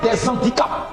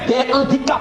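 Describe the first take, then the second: First: A z sound links the two words. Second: No z sound links the two words. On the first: The speaker calls it wrong. "et non des handicaps. Non, ça ne passe pas" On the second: The speaker calls it right. "on va dire un handicap ou bien des handicaps"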